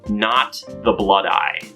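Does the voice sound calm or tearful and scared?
calm. It is said in a calm, plain voice.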